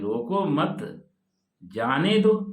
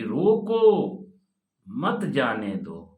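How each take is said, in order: First: The pause comes after 'mat'. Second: The pause comes after 'roko'.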